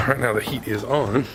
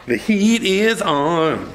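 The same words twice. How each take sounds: First: Said in the usual way. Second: Sung, stretch it out in a playful sing-song. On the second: Pretend. Minister turns off heater, sings the phrase slow and high.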